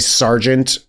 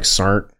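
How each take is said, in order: First: The word is said in full, with both syllables. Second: The word is squeezed quickly into one blended syllable.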